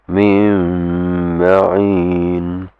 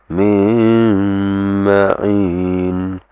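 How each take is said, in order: The two takes are said the same way.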